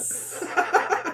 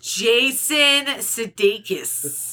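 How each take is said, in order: First: Sudeikis asked higher, with a laugh, as if unsure; unsure pronunciation. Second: Jason Sudeikis said slowly, each syllable of Sudeikis spelled out; careful pronunciation. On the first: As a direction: test the name Sudeikis with a laughing question. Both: Shown as a demonstration. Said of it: "you said it the right way".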